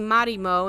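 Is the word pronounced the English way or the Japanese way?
Japanese. The word is pronounced the Japanese way. The speaker calls it right. "why I keep saying Marimo"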